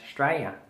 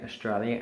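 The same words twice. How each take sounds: First: The word is shortened to two syllables, Straya. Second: The word is said in full, all syllables. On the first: "it actually starts with S T R A Y A. So we leave out the A U S and we leave out the L I A" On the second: "we say Australia as"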